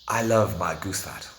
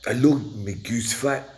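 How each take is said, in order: First: It is said in the speaker's plain accent. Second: It is said in a put-on Scottish accent. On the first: "which roughly translates as" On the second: "We try a Scottish accent"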